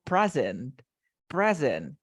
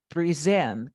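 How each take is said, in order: First: "present" stressed on the first syllable, PRE-sent; noun stress. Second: "present" stressed on the end, pre-SENT; verb stress. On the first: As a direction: hit the start of "present" as a noun. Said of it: "Como sustantivo". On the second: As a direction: hit the second syllable of "present". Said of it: "As a verb". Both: Shown as a demonstration.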